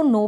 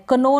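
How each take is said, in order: First: नो starting straight on "n"; silent K demo. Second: कनो with the K sounded, "kuh-no"; mispronunciation demo. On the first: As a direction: say नो like "no", dropping the K. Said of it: "इसको नो पढ़ रहे हैं". (नो में के silent) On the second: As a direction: add a "kuh" before the n in कनो. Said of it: "कनो ना पढ़ें". (कनो में क का उच्चारण) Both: Shown as a demonstration.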